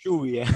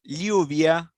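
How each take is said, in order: First: The double L sounds like an SH sound. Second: The double L sounds like an L-Y glide. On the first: This is how it is said in Argentina. "in Argentina we say lluvia, like a ace and an h" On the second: This is how it is said in Spain. "in Spanish from Spain. It pronounces like um, Liu- with l-"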